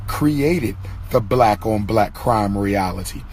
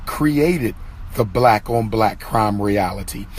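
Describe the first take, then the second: No difference in how they are said.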